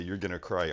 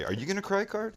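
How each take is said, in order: First: Said in the usual way. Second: Higher, sing-song imitation of the tease; mock teasing friend. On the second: Cook mimics the friend teasing about onion tears, mock sing-song. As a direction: mimic the friend's needling question. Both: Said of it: "every time you pulled out the".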